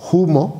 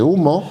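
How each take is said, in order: First: The word begins with an audible breathy h. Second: The word begins directly with the vowel. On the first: It keeps an old sound from Latin initial F. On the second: The old sound has been lost. "en vez de"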